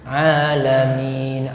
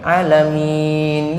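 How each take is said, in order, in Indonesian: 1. Vokal pertamanya dibaca panjang. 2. Vokal pertamanya dibaca pendek. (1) "A-nya kan panjang" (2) "Dia bacanya pendek"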